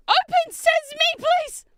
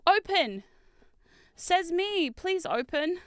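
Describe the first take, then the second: First: Very high, loud command; shrieked, exasperated plea; desperate shout. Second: Raised-pitch plea, spaced out; playful begging; pleading command. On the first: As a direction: yell the magic words at a stuck box. Shouts at the stuck box. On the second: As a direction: coax a stuck box to open. Pleading with the stuck box. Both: Real, not acted.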